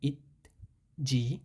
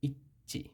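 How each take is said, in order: First: The second syllable starts with a j sound. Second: The second syllable starts with a ch sound. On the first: The speaker calls it wrong. "এখানে হওয়ার কথা ছিল ইত জি" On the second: The speaker calls it right. "সেটা না হয়েছে ইচ্চি"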